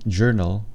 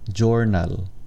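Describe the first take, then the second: First: It is said with a standard English accent. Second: It is said with a Filipino accent. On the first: The speaker calls it wrong. "instead of saying journal" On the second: The speaker calls it right. "say jornal"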